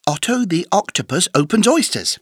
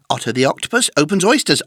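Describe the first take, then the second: First: The sentence is said fast without pauses. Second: The sentence is said very fast without pauses. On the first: "plus vite!" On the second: "Encore plus vite!"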